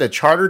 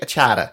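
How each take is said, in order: First: It is said in a general accent, with the r. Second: It is said in a Boston accent, without the r.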